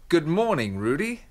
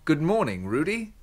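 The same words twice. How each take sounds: No difference in how they are said.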